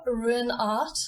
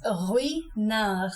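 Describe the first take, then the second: First: Ruinart said slowly as English ruin-art; wrong English Ruinart. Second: Ruinart very slow, French rwee-nar. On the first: Teacher showing the wrong Ruinart to avoid. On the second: Teacher giving the right Ruinart, very slowly. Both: Shown as a demonstration. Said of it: "It's Ruinart".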